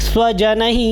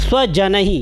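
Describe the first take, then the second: The two takes are said the same way.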